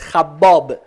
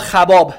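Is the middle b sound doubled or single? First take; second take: doubled; single. First: The middle b sound is held long, doubled. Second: The middle b sound is short, single. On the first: "اینو هم میتونید مشدد بخونید" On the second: "هم میتونید بدون تشدید"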